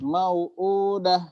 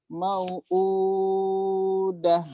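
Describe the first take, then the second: First: The long vowel is held briefly, two counts. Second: The long vowel is held longest, six counts. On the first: "dua atau empat atau enam" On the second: "dua atau empat atau enam"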